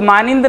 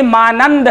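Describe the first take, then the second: First: Quick मानिंद with a short i, as maa-nind; मानिंद ending in -nind, the wrong form; mispronounced मानिंद. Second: मानंद as maa-nand, second syllable drawn out; correct pronunciation. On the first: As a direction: cite मानिंद with an i before the final nd. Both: Shown as a demonstration. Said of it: "सही तलफ़ुज़ मानिंद नहीं".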